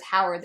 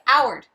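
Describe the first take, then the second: First: Said in the usual way. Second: "Howard" without its H, as "'Oward"; dropped H. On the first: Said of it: "like, no H". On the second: Retold or imitated. Imitating people who drop it, "Howard" with no H. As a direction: start "Howard" straight on the vowel. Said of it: "they say".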